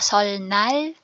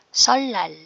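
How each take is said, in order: First: The middle consonants sound like l then n. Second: The middle consonants sound like a double l. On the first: The speaker calls it wrong. "hindi siya solnal" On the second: The speaker calls it right. "Real ang magiging tunog"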